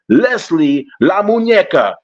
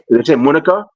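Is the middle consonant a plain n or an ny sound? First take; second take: ny sound; plain n. First: The middle consonant is an ny sound. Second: The middle consonant is a plain n sound. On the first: The speaker calls it right. "surprised that you got the muñeco part right" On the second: The speaker calls it wrong.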